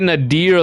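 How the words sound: The name is said with an American accent. "I say it with the American accent"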